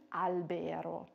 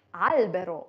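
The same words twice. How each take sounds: First: "albero" mis-stressed as alBEro; wrong middle stress. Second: "albero" stressed as ALbero; first-syllable stress. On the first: Teacher showing what not to say, BE stressed in "albero". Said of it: "und nicht albero". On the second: Teacher showing where stress falls, AL stressed in "albero". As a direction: hit the AL of "albero". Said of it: "Deswegen sagt man Baum". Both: Shown as a demonstration.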